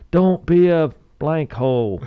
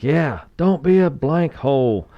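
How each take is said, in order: First: Slow, high imitated team chant shout. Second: Slow, high mock coach shout; coach repeating the shout. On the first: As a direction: bellow it like a whole football team answering. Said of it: "the whole team shouts". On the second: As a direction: hammer the rule home like a coach. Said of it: "the coach reiterates it".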